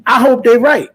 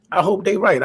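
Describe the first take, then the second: First: High, loud burst on I hope they right; excited hope. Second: Said in the usual way. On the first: Real, not acted. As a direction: blurt it out like a fan who can't wait. Hoping for a big fight.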